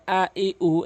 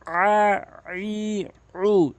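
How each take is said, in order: First: "আ, ই, উ" as simple vowels with no throat squeeze; short hamza onset on "আ, ই, উ"; common mispronunciation. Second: "আ, ই, উ" squeezed from the middle of the throat, held long; correct ayn. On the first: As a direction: say "আ, ই, উ" briskly, glottal start instead of ayn. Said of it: "পঁচানব্বই percent লোক এরকম বলে থাকে". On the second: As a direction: pharyngeal ayn start on each of "আ, ই, উ". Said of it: "হলকের মাঝখান থেকে চাপ দিয়ে উচ্চারণ". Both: Shown as a demonstration.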